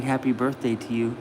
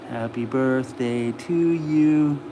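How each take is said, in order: First: Said in the usual way. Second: Sung, slow, low birthday song, unaccompanied. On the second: Real, not acted. Owner passes on viewers' wishes, singing to his dog. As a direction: sing it slowly to your dog. They're saying happy birthday to you.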